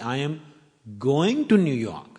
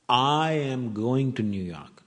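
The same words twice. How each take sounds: First: The word "going" is stressed. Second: The word "I" is stressed. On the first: The speaker is heading there, not coming back. "I'm not coming from New York" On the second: The speaker is going, not the listener. "Not you"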